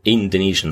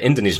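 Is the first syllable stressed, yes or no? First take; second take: yes; no. First: The stress is on the first syllable, Indo. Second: The stress is not on the first syllable. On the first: The speaker calls it wrong. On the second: The speaker calls it right.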